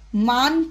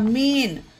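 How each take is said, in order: First: The vowel sounds like 'ah'. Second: The vowel sounds like 'ay'. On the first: The speaker calls it wrong. "मान पढ़ना गलत होगा" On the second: The speaker calls it right. "इसे मान नहीं मेन पढ़ेंगे इसे"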